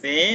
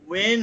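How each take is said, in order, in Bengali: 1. এটা বন্ধ ঠোঁট দিয়ে শুরু হয়, b ধ্বনি। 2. এটা গোলাকার ঠোঁট দিয়ে শুরু হয়, w ধ্বনি। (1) "বে নয়" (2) "ওয়ে নয়"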